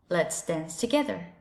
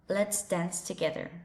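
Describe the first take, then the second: First: It is said in an American English accent. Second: The same.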